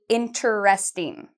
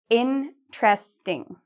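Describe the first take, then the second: First: The word is said with four syllables. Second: The word is said with three syllables. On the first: The speaker calls it wrong. "We don't say it like that" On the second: The speaker calls it right. "this one has three syllables also"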